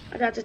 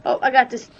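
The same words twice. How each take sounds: First: Said in the usual way. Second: Sudden loud, confident call; loud boast. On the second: Real, not acted. Gamer shouting to friends that he's got this, loud. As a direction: shout it out as you take over.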